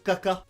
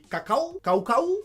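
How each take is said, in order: First: Said in the usual way. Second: Caca dit « caou-caou »; A diphtongué. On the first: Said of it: "quand tu veux dire caca". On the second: Shown as a demonstration. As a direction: glisser vers OU dans chaque A de cacao. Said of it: "tu dis cacao". (« cacao » pour caca, à la québécoise)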